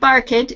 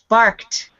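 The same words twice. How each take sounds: First: The ending is said as an extra syllable. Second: The ending is said as a short t sound. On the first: The speaker calls it wrong. "Not barked. It's not a T or a D here" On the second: The speaker calls it right. "With the T sound on the end"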